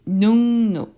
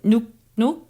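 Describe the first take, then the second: First: The first syllable ends in an ng sound. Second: The first syllable ends in a k sound. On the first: The speaker calls it right. "pronounce the first letter with the more softer sound" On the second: The speaker calls it wrong. "it's very difficult to pronounce it nuk nuk"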